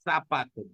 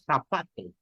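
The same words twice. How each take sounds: First: "Zapato" said with an s, "sapato"; zapato with seseo. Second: Zapato said with a lisped θ, "θapato"; zapato with Spanish z. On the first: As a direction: pronounce "Zapato" with an s sound, no lisp. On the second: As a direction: pronounce "zapato" with the Castilian z as th. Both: Shown as a demonstration. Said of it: "¿qué decimos?".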